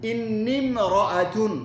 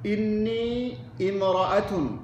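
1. inni সরাসরি m ধ্বনির সাথে যুক্ত হয়। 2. imra'atun-এর 'i' আলাদাভাবে উচ্চারিত হয়। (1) "বিশুদ্ধ হলো এটা ইন্নিম, ডাইরেক্ট মিমকে ধরবে" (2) "দেখেন দুভাবে পড়তেছি"

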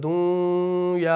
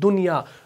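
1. n ध्वनि अगली ध्वनि में मिल जाती है। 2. n ध्वनि साफ़ और स्पष्ट बोली जाती है। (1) "आप ऐसे नहीं पढ़ते हैं" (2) "नून को जाहिर करके पढ़ते हैं"

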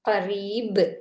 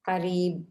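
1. கடைசி மெய்யெழுத்து வலுவான துள்ளலுடன் வெளியிடப்படுகிறது. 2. கடைசி மெய்யெழுத்து துள்ளல் இல்லாமல் தட்டையாக நிறுத்தப்படுகிறது. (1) "அவ்வாறு அழுத்தி உச்சரிக்க வேண்டும்" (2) "என்று ஓதினால் அது பிழை"

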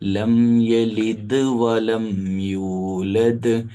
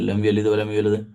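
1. അവസാനത്തെ d ശബ്ദം വ്യക്തമായി പുറത്തുവിടുന്നു. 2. അവസാനത്തെ d ശബ്ദം ദുർബലവും പുറത്തുവിടാത്തതുമാണ്. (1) "ദ് എന്ന സൗണ്ട് കൃത്യമായിട്ട് പുറത്തേക്ക് വരണം" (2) "അങ്ങനെയല്ല"

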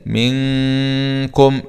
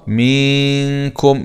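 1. يبقى الحرف الأول قصيراً. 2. الحرف الأول يُمَدّ طويلاً.

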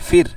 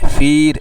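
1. স্বরটি ছোট ও দ্রুত। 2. স্বরটি টানা ও ধীর।

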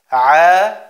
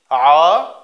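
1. Der Vokal klingt hell und leicht. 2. Der Vokal klingt dunkel und schwer. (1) "dass das Ein ein heller Buchstabe ist" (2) "und nicht A"

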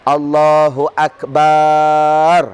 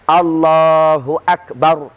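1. Suku kata 'ba' dipanjangkan. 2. Suku kata 'ba' dibaca pendek. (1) "Jangan dipanjangkan. ... dia habis rosak sembahyang" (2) "Yang benar, ... Pendek"

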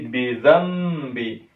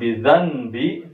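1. Huruf n diubah menjadi m sebelum b. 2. Huruf n diucapkan biasa sebelum b. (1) "tapi bidhambi" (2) "bukan bidhanbi"

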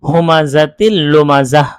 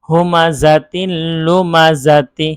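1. শেষ শব্দটি 'h' ধ্বনিতে শেষ হয়। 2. শেষ শব্দটি 'ti' ধ্বনিতে শেষ হয়।

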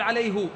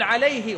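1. الهاء متبوعة بالحركة u. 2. الهاء متبوعة بالحركة i. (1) "ولا تقول عليه" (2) "فتقول عليه"

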